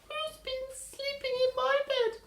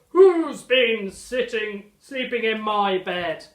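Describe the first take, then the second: First: It is squeaked in a high, tiny voice. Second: It is bellowed in a loud, deep voice.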